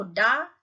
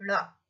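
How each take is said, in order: First: "डा" said with a hard retroflex d, tongue tip struck back; "डा" with a plain retroflex stop, no flap. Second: "ड़ा" with the tongue flapping forward, not a stop; "ड़ा" said as a quick retroflex flap; flapped ड़ा. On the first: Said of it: "उसे हम डा बोल रहे हैं". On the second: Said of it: "नीचे बिंदु लगा है तो आप क्या बोलोगे". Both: Shown as a demonstration.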